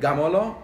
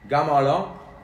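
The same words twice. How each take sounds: First: The word is said at a fast pace. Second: The word is said at a slow pace.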